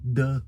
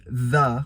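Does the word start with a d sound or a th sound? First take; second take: d sound; th sound. First: The word starts with a d-like sound. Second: The word starts with a th sound. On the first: The speaker calls it wrong. "Muitas pessoas ficam falando the" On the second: The speaker calls it right. "ao invés de the, que seria o correto"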